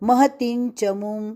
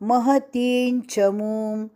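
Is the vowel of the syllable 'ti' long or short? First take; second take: short; long. First: The vowel of 'ti' is short. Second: The vowel of 'ti' is long. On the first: The speaker calls it wrong. "यह गलत" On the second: The speaker calls it right. "ये महती का ती दीर्घ"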